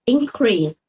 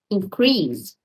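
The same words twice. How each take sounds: First: The stress is on the first syllable. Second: The stress is on the second syllable. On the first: It is a noun. "Now and verb" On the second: It is a verb. "Now and verb"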